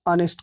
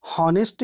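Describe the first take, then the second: First: ऑनेस्ट with a silent h, starting on the vowel; honest said correctly with a silent h; correct pronunciation. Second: हॉनेस्ट with a voiced h at the start; honest with the h wrongly pronounced; wrong pronunciation. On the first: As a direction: say ऑनेस्ट as the right way, opening straight on the vowel. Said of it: "नहीं कहते, ऑनेस्ट कहते हैं". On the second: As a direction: say हॉनेस्ट with the h sounded, as the mistake to avoid. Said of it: "हॉनेस्ट नहीं कहते". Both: Shown as a demonstration.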